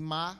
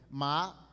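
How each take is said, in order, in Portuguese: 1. Ma é dito com o tom neutro. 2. Ma é dito com o tom que significa planta. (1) "ma neutro, tom neutro, é para pergunta" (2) "ma planta"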